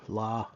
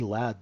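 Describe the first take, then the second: First: It is said in Scouse without the final D. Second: It is said with a clear final D.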